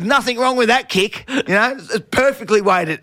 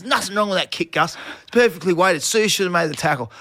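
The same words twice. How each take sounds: First: Fed-up snap back. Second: Firm talk-back. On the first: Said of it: "And I've had enough". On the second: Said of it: "'cause I just had enough". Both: Retold or imitated.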